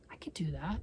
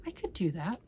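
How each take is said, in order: First: Tempted soft whisper. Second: Said in the usual way. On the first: Real, not acted. Tempted aside.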